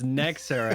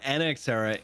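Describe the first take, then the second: First: The first part is said as one word. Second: The first part is spelled as separate letters. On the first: The speaker calls it right. "it's Next Era" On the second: The speaker calls it wrong. "it's not N X Era"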